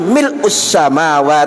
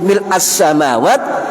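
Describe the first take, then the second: First: The word ends with a u vowel. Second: The word ends with an a vowel. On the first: The word describes the praise itself. "Dibaca mil'u itu marfu, ada tanda dhom" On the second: The word describes an implied hidden noun. "kalau mil'a dibaca fathah itu nasab"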